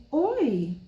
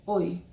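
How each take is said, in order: First: "oi" drawn out with a high swell in pitch; affectionate intonation. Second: Said in the usual way. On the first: Shown as a demonstration. Teacher greeting someone she likes a lot, intoned affectionate "oi". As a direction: greet someone dear with a lilting, higher "oi". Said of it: "Você tem toda uma entonação de voz". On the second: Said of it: "a gente não faz simplesmente "oi".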